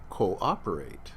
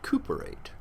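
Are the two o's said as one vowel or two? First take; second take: two; one. First: The two o's are said as separate vowels. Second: The two o's merge into one vowel. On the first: The speaker calls it right. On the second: The speaker calls it wrong.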